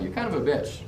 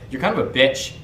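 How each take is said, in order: First: It is said with a smirking, playful tone. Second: It is said with an aggressive, hostile tone. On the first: The remark is teasing and shows understanding. The speaker calls it right. "like a smirk" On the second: The remark is a real attack. The speaker calls it wrong. "you can't make it seem like there's any aggression in your voice"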